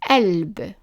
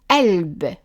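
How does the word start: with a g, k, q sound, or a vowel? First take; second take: vowel; vowel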